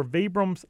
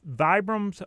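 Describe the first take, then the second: First: "Vibram's" said VEE-brumz; "ee" vowel opens "Vibram's"; long-E Vibram's. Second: "Vibram's" said VY-brumz; "eye" vowel opens "Vibram's"; long-I Vibram's. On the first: Host hedges between both names, "Vibram's" as VEE-brumz. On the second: Host hedges between both names, "Vibram's" as VY-brumz. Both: Shown as a demonstration. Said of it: "get the answer right either way".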